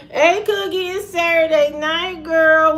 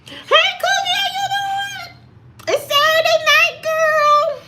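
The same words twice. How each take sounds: First: Pitched up, but well short of falsetto; same greeting, only moderately higher; raised voice. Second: Falsetto voice. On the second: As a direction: squeal it up high like a showy diva. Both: Shown as a demonstration. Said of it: "you'll never hear a voice like this".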